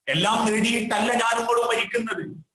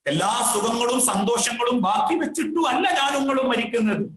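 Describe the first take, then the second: First: Said in the usual way. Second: Raised preacher's call, hitting അല്ല; fervent sermon cry on അല്ല; emphatic preaching. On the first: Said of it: "first take of the sermon line". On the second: Acted. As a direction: drive the repeat home to the congregation. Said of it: "repeated with rising force".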